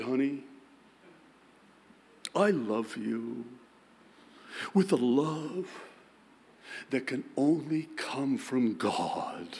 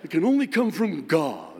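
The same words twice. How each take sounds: First: Mock-solemn, slow holy tone; hamming up a pious husband's declaration; husband to wife, mock-solemn King James tone; King James reverb. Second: Louder, booming mock-scriptural tone; husband repeats the line in booming pious reverb; King James reverb. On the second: Shown as a demonstration. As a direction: intone it like a hammy preacher with echo. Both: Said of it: "King James reverb in it".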